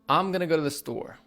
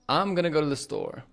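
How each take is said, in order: First: Going to is reduced to gonna. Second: Going to is reduced to gonna.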